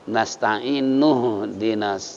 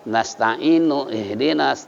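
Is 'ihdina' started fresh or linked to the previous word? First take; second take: linked; fresh. First: The first vowel is dropped, linking straight into dina. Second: The word ihdina starts fresh with its first vowel. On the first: The speaker calls it right. "tapi ... Jadi seakan-akan alif dibuang" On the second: The speaker calls it wrong. "Jadi nggak perlu"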